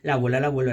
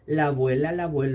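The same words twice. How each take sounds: First: The phrase is spoken very fast. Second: The phrase is spoken somewhat fast. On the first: "Y más rápido todavía" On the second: "un poquito más rápido"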